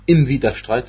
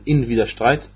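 First: "im" set apart as the rejected wording; stress on IM. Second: "in" set apart as the correct wording; stress on IN. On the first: Teacher rejecting the definite form for listeners, stressed "im". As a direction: point up the word "im". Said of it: "Das heißt, es ist nicht". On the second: Teacher correcting to the indefinite form, stressed "in". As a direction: point up the bare "in". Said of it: "ist sprachlich eine Betonung". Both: Shown as a demonstration.

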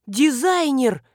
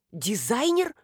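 First: Loud, high alarmed cry; sudden realization. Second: Said in the usual way. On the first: A narrator's reading. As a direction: remember with a jolt. Marina jumps up remembering. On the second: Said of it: "повторил Маневин".

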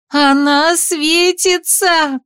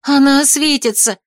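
First: Much higher, very slow desperate cry; desperate shout. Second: Higher, urgent exclamation; exclaimed. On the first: Heroine cries as the glow becomes blinding, desperate. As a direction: scream the warning as it blinds. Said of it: "отчаянно крикнула я". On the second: Heroine shows Ardan the glowing mother, exclaiming. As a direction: cry out pointing at her. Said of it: "воскликнула я". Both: A narrator's reading.

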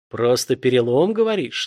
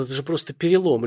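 First: Menacing villain sneer, rising; a hint of a sinister hiss; ominous hiss. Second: A touch of frightened babble; mildly scared, pleading; trembling plea. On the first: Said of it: "зловеще прошипел убийца". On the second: Acted. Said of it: "пролепетал пострадавший дрожащим голосом".

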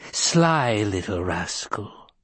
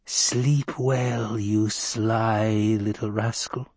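First: Put-on chuckling old crone. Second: Slow wheezy crone goodnight; a sly old witch, drawn out; breathless old person. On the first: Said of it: "she chuckled". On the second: Acted. Crone farewell.

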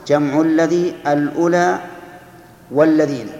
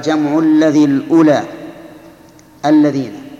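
First: الأولى held up, then والذين added as the second item; underlying full form. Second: Loud, measured recital of the verse line; verse recitation. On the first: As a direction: spell out the full form, with "wa" joined onto والذين. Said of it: "والأصل". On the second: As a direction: recite it firmly, running straight on to الذين without a joining "wa". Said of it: "لكن بحذف حرف العطف". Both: Shown as a demonstration.

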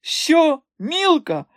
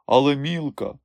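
First: Very high, scornful astonished shriek; mocking disbelief. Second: Said in the usual way. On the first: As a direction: repeat the name as if it were absurd. Madame mocks the rival.

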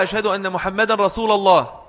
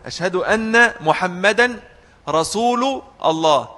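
First: "رسول" as rasula-llah, with an a; common misreading. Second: Slow demo, "رسول" as rasulu-llah; damma on rasul. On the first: Retold or imitated. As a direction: put an a ending on رسول before الله. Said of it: "بعض الناس بيقرأوها". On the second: Shown as a demonstration. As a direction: slowly separate the words, u ending on رسول. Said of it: "رسول بالضم".

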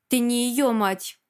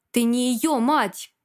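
First: Slow, sharp denial. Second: Slow, forceful bark. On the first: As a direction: cut her down, drawing the words out. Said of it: "резко сказал он". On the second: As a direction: bark the denial, a little harder. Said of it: "гаркнул он". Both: A narrator's reading.

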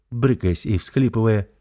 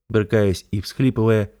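Both takes have the same delivery.

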